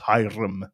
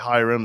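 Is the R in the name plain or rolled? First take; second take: rolled; plain. First: The R is said with a slight roll. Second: The R is said plainly, without rolling. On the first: "with a slight roll on the R" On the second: "you most likely would say Hiram"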